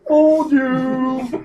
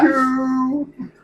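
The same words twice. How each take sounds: First: Dark Helmet. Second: High, slow, muffled villain taunt; drawn-out taunt inside a helmet; Dark Helmet. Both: Retold or imitated. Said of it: "Gotta say it like Dark Helmet".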